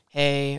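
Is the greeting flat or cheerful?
flat. The greeting sounds flat and indifferent.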